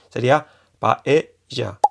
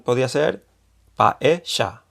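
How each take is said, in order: First: The middle consonant is an English J sound. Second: The middle consonant is an Argentine-style sound. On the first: "como la J catalana o del inglés" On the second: "Si fuese con acento argentino"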